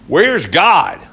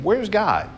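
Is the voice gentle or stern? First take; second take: stern; gentle. First: It is asked in a stern voice. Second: It is asked in a gentle voice.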